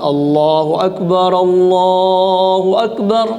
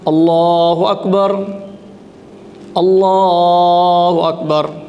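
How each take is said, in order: First: Both takbirs are joined in one breath. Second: Each takbir is said separately with a pause. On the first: The speaker calls it right. "dia gabungkan dua takbir itu menjadi satu" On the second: The speaker calls it wrong. "Tidak dia berazan"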